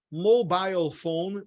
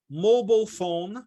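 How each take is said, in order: First: "mobile" as MO-bile, rhyming with style, British style; "mobile phone" with a long "bile" ending, British. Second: "Mobile" as MO-bul, American style; "Mobile phone" with a short reduced second syllable, American. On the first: Teacher giving students the British pronunciation. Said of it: "pra britânico". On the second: Teacher giving students the American pronunciation. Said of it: "pra americano". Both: Shown as a demonstration.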